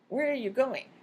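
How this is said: The word going carries the main stress. This is a first, basic question. "Has basic intonation with going, receiving the most stress or focus in the sentence"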